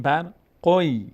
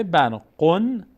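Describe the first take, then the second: First: بر قوی with n turned into a held y; tanwin merged into ya. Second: بر قن ending on a clear n; unmerged tanwin. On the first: Teacher shows the correct recitation, بر قوی with held y. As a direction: glide into a long y at the end of قوی. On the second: Teacher shows the form not to recite, بر قن with full n. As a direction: keep the n in بر قن, separate from what follows. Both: Shown as a demonstration.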